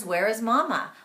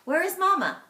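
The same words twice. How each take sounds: First: Said in the usual way. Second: Higher and louder read-aloud question; high, loud, playful question; animated storytelling. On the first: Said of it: "one question is". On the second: Shown as a demonstration. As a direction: ham up the question for the kids. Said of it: "So here's an example".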